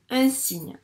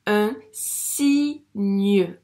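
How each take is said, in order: First: Said in the usual way. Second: "signe" loud, split as si-gneu; syllable by syllable. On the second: Shown as a demonstration. Teacher reading for a pupil, "signe" split loudly. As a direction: sound out "signe" in two pieces, si, gneu. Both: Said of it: "elles forment le son gne".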